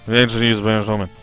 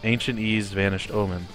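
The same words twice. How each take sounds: First: The words are slurred together and mumbled. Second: The words are low, flat and not crisp. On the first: "it's not like I say" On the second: "low and monotonous"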